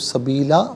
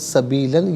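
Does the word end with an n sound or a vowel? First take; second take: vowel; n sound. First: The word ends with a long a vowel. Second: The word ends with an n sound. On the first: The reading stops at this word. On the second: The reading continues without stopping.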